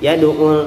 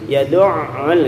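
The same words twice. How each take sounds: First: The ain is said without any doubling. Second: The ain is pressed hard and strongly doubled. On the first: "nah itu kan enggak ada kesan tasydid tuh" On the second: "Bukan berarti ditekan yad'ul itu keliru juga ya, terlalu"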